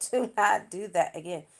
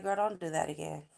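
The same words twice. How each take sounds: First: "Do not" split apart and stressed, louder, through a laugh; emphatic repeat. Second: Said in the usual way. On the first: Retold or imitated. Boyfriend warns her off his hair, "Do not" stressed laughing. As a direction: lean hard on "Do not", laughing.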